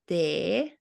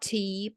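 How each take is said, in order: First: The vowel is a short pure 'eh' sound. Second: The vowel is a long English 'ee' sound. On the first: The speaker calls it right. "but te. Like in Finnish, we say te" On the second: The speaker calls it wrong. "not T"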